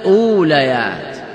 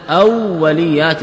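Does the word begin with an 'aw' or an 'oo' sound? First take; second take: oo; aw. First: It starts with a long 'oo' and no doubled w. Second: It starts with 'aw' and a doubled w. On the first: It is the plural of a different word for first. "بضم الهمزة وإسكان الواو وفتح اللام" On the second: It is the plural of a word meaning first or primary. "بفتح الهمزة وتشديد الواو وكسر اللام"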